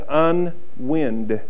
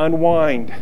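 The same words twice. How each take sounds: First: The 'wind' part sounds like the breeze. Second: The 'wind' part rhymes with 'find'.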